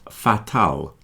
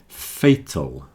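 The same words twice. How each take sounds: First: Both vowels sound the same, like 'a'. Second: First vowel is 'ay', second is a weak 'uh'. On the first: The speaker calls it wrong. "Not fatal. Don't pronounce the two A's the same" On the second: The speaker calls it right. "So fay is the first part. Tull"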